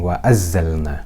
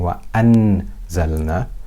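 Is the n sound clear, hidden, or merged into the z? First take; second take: merged; clear. First: The n merges completely into the z. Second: The n is pronounced fully and clearly. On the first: "I'm not merging the Noon completely into the za. I'm not saying wa azzalna" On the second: "I'm not pronouncing the Noon clearly. I'm not doing idhar. I'm not saying wa anzalna"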